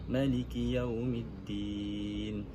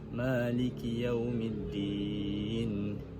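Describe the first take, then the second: First: The vowel after the m is short. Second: The vowel after the m is long. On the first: "membuang alif selepas huruf mim" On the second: "kekalkan huruf alif selepas huruf mim"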